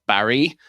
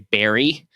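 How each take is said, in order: First: The first vowel is the open 'a' of 'bat'. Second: The first vowel is the 'e' of 'bet'. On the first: "there's a town called Barry" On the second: "Canadians say Barry"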